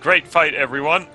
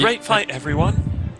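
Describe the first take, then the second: First: It is said in a put-on character voice. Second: It is said in a plain natural voice.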